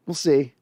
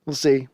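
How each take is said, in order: Both takes have the same delivery.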